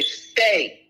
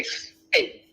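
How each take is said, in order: First: "Say." thrown out a touch higher; mocking say. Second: "Say." breathed without voice; mock the word as a hushed aside; whispered say. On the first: Lecturer mocking the questioner's word, scoffing. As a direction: scoff the word "Say." as the flimsy claim. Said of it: "they, they, they say". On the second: Lecturer whispering the word to ridicule it, breathy. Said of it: "They say".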